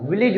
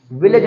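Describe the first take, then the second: First: "विलेज" with a short i in the second syllable; correct pronunciation of village. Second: "विलेज" with an ay sound in the second syllable; wrong pronunciation of village. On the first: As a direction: say "विलेज" as vi-lij. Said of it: "विलेज होता है". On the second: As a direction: say "विलेज" as vi-layj. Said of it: "विलेज नहीं होता". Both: Shown as a demonstration.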